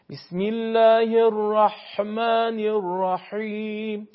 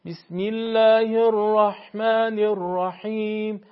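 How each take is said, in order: First: Slow recitation, ح in الرحمن and الرحیم squeezed too hard so it nears خ; overdone ح. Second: Slow recitation, ح in الرحمن and الرحیم with only a slight throat constriction; a light, measured ح on الرحمن الرحیم; correct ح. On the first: Teacher showing the wrong, overdone ح: slow recitation with a harsh ح. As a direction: tighten the throat too much on الرحمن الرحیم. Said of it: "این زیاده". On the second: Teacher showing the right amount of ح: slow recitation with a gentle ح. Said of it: "به همین اندازه که". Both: Shown as a demonstration.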